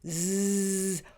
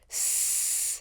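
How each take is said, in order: First: A buzzing sound with voice. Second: A hissing sound with no voice. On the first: "pronounced with a voice" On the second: "pronounced with no voice"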